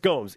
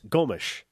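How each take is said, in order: First: The name is said with an American pronunciation. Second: The name is said with a Brazilian pronunciation. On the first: "In America, it's Gomes" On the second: "In Brazil, it's Gomes"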